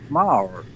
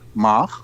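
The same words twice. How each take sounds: First: The R is an American-style R. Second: The R is a traditional Dutch R.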